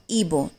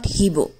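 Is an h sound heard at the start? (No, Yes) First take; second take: No; Yes. First: The word starts with a vowel, no h sound. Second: The word starts with an audible h sound. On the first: The speaker calls it right. "H is silent, that's why Ebo" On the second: The speaker calls it wrong. "not Hebo"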